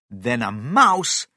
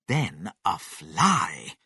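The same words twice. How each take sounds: First: "mouse" punched loud with a falling end; stress on mouse. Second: "then a fly" very slow and lower; drawn-out final step. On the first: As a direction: hit "mouse" hard, slowly. Narrator counts down shrinking sizes. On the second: Last, smallest size in countdown. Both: A narrator's reading.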